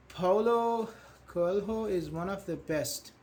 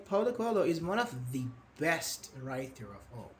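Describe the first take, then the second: First: Said in the usual way. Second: "the best" stressed, the said as "thee"; emphatic "the". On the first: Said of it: "how you want to put emphasis". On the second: Shown as a demonstration. Teacher offers stronger version, emphatic "thee best". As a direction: lean on "the best" with a long thee. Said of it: "what do we emphasize?".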